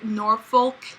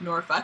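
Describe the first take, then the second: First: Each syllable is said slowly and carefully. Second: The syllables are said quickly and run together. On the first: The speakers are avoiding a rude-sounding word. "they overpronounced it" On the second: The word sounds like a rude word. "they didn't want it to sound like Norfolk"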